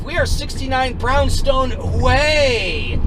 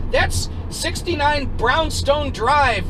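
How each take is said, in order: First: "Way" yelled long and drawn out; slow, high, loud correction landing on "Way"; stress on Way. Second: "Drive" stretched out in a high, angry correction; stress on Drive. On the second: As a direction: spell it out slowly, leaning on "Drive". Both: Retold or imitated. Irate man contrasts Drive with Way.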